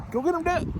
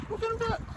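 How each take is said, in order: First: High cooing voice to the dog; pet talk. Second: Very high, softer squeaky pet voice; high pet talk. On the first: Trucker cheering on his dog Dad, high pet-talk voice. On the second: Trucker repeating the cheer to his dog, squeakier and softer. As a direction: go even higher for the dog. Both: Real, not acted.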